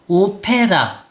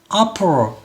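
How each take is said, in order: First: Every vowel is pronounced fully. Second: The unstressed vowels are reduced to a schwa. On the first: The speaker calls it wrong. "오페라 이렇게 읽는 친구들이 많고요" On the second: The speaker calls it right. "opera, elephant 이렇게 되는 거죠"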